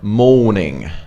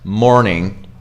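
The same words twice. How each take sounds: First: The R sound is dropped after the vowel. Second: The R sound is clearly pronounced after the vowel. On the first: "in British accent, you drop the R" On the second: "if you want to go American, you don't drop the R's"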